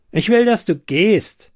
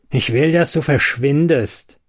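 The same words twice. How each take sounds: First: Angry. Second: Firm, level, stress on "dass"; controlled anger. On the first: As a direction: demand "will" sharply and high. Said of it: "blaffte er". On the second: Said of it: "Sven wurde jetzt wirklich wütend". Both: A narrator's reading.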